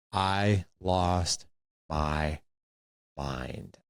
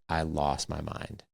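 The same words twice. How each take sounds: First: "I lost... my... mind", a pause between words; slow, deliberate repeat, "mind" sinking away; word-by-word emphasis. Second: Said in the usual way. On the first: Real, not acted.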